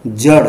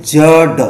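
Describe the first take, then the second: First: जड़ with a flicked final ṛ; flapped consonant. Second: जड़ drawn out with a hard final ḍ; wrong stop sound. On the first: Teacher asking what is read, जड़ with flapped ṛ. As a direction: say जड़ as jaṛ. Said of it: "क्या पढ़ते हैं". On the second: Teacher showing a careless reading, जड़ with hard ḍ. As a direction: say जड़ wrongly as jaḍ, no flap. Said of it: "ध्यान नहीं रखेंगे और ऐसे पढ़ देते". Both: Shown as a demonstration.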